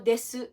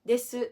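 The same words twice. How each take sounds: First: The final u is clearly pronounced aloud. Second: The same.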